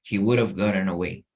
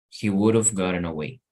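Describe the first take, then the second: No difference in how they are said.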